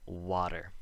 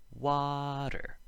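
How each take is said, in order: First: Said in the usual way. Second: WATER with "WA" held high and long, then dropping; exaggerated stress on the first syllable of "Water"; emphasized first vowel. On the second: Shown as a demonstration. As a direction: stretch and lift the first vowel of "Water", tap the T. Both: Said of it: "The vowel sound is emphasized".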